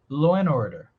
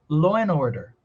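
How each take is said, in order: First: The d drops and n links into order. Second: The same.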